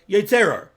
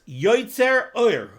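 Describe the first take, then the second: First: The two words are said fast as one word. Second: The two words are said with a clear break. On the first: It sounds like a word that means nothing. The speaker calls it wrong. "if you say it fast, It sounds like one word" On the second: It means the one who formed light. The speaker calls it right. "it's two words"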